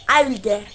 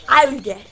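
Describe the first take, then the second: No difference in how they are said.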